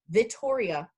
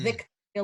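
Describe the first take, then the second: First: A doubled T with no K sound. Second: A K sound comes before the T. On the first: The speaker calls it right. "Vittoria with a T" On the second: The speaker calls it wrong. "not Victoria like the queen"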